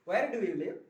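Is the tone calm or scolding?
calm. It is said in a relaxed, calm tone. The speaker calls it right. "आराम से conversation"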